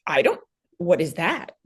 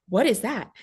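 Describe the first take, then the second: First: A breathless whispered question; stunned mother whispering to the doctor; shocked whisper. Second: Said in the usual way. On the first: Retold or imitated. Retelling her own shocked reaction.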